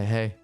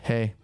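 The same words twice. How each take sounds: First: The greeting is flat and unenthusiastic. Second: The greeting is bright and lively. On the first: The speaker seems unfriendly and closed off. The speaker calls it wrong. "which is my resting bitch face" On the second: The speaker seems friendly and approachable. The speaker calls it right. "it's night and day"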